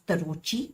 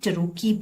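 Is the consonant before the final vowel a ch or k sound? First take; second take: ch; k. First: The consonant before the final vowel is ch. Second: The consonant before the final vowel is k. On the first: The speaker calls it wrong. "This is not pronounced as तरोची" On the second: The speaker calls it right. "इसको हम टरोकी बोलते हैं"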